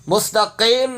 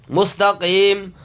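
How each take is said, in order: First: مستقیم ending "qaym"; wrong mustaqeem. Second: Slow مستقیم with long "qeem"; correct mustaqeem. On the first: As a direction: misread مستقیم with "ay" in the last syllable. (مستقیم کو "قَیم" یائے مجہول سے) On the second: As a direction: hold a clear "ee" at the end of مستقیم. (مستقیم، لمبی یائے معروف سے) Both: Shown as a demonstration. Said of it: "مستقیم نہیں پڑھنا".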